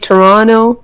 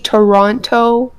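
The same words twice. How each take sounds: First: The second T is dropped. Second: The second T is clearly pronounced. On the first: The speaker calls it right. "We say Toronto. We don't pronounce our T's" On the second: The speaker calls it wrong. "We don't say Toronto"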